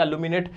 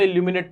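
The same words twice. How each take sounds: First: इल्यूमिनेट said as "uh-loo-minate", with no y-glide; the right way: इल्यूमिनेट starting "uh-loo"; correct pronunciation. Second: इल्यूमिनेट said as "ill-yoo-minate", with a clear y-glide after the first vowel; the wrong way: इल्यूमिनेट with an "ill-yoo" start; wrong pronunciation. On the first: Teacher corrects the class, इल्यूमिनेट as "uh-loo-minate". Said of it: "इल्यूमिनेट क्या पढ़ा जाएगा?". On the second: Teacher tells students the common reading, इल्यूमिनेट as "ill-yoo-minate". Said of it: "इल्यूमिनेट गलत होता है". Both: Shown as a demonstration.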